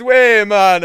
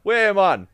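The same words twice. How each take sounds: First: Put-on high, loud Jamaican accent; a louder second go at the Jamaican accent. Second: Put-on high, loud Jamaican accent. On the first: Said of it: "do that Jamaican accent again". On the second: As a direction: play a chatting whale in a Jamaican accent. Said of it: "that's Jamaican".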